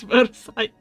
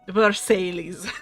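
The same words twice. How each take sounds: First: It is pronounced with French sounds. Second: It is pronounced as English spelling suggests. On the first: The speaker calls it right. "but it's Versailles" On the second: The speaker calls it wrong. "they pronounce this as Ver Versailles. Like that, that's basically how it's written in English"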